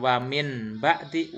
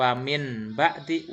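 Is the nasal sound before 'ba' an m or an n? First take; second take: n; n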